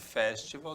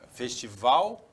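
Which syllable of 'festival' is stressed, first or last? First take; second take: first; last. First: The stress is on the first syllable. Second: The stress is on the last syllable. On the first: "mas se fosse festival, seria uma proparoxítona" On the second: "Festival é oxítona"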